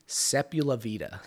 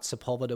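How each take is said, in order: First: The middle is split into a separate 'la vida'. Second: The middle is said as a tight 'lv' cluster. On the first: The speaker calls it wrong. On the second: The speaker calls it right.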